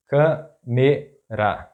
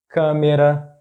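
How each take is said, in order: First: Câmera slowly split, câ - me - ra; syllable by syllable. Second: Câmera as one word, stressed on first CÂ; stress on accented syllable. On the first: Teacher breaking down an example word, câmera slow in syllables. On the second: Teacher giving an example word, câmera stressed on first syllable. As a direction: say câmera joined up, leaning on CÂ. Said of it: "the stressed syllable is that one". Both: Shown as a demonstration.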